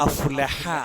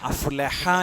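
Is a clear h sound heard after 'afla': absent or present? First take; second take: present; present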